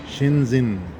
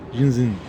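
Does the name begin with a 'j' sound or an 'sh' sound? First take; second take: sh sound; j sound. First: It begins with an 'sh' sound, said slowly. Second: It begins with a 'j' sound, said quickly.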